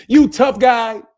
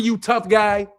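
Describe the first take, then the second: First: Slow, louder sarcastic jab; mocking tough guy. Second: Said in the usual way. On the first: Taunting the would-be hitman, slow mocking jab. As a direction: drag it out to mock him.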